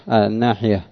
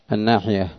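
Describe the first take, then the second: The two takes are said the same way.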